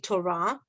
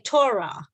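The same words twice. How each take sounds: First: The stress is on the last syllable. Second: The stress is on the first syllable. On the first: This is the Hebrew pronunciation. The speaker calls it right. "but it's actually Torah" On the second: This is how people commonly say it. The speaker calls it wrong. "We say Torah"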